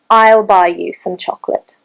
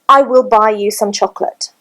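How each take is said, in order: First: I will is contracted into one syllable. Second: I will is said as two full words. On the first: The speaker calls it right. "It would be" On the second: The speaker calls it wrong. "you would never hear"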